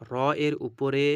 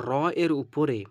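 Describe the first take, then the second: No difference in how they are said.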